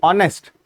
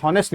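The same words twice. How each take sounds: First: ऑनेस्ट with a silent h, starting on the open vowel; correct pronunciation. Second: हॉनेस्ट with a voiced h at the start, shown as the wrong way; wrong pronunciation. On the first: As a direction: say ऑनेस्ट with no h, opening straight on ऑ. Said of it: "हॉनेस्ट नहीं, ऑनेस्ट". (ऑनेस्ट बिना h के, सही उच्चारण) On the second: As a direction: say हॉनेस्ट with a clear h sound. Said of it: "हॉनेस्ट नहीं". (हॉनेस्ट को h के साथ बोलना, गलत उच्चारण) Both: Shown as a demonstration.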